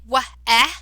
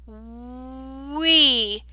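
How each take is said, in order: First: The vowel is a short eh sound. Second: The vowel is a long ee sound. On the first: The speaker calls it wrong. "that doesn't make sense" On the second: The speaker calls it right. "change this vowel sound to the long E sound"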